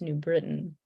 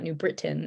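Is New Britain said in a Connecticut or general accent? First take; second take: Connecticut; general. First: It is said in a Connecticut accent. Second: It is said without the Connecticut accent. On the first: The speaker calls it right. "it's New Britain" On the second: The speaker calls it wrong. "It's not New Britain"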